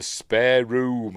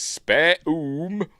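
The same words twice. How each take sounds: First: Said in the usual way. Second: High, loud questioning echo; puzzled faun. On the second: Retold or imitated. Faun mishearing the girl's words, puzzled high echo. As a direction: repeat it as a puzzled, rising question. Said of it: "and he says".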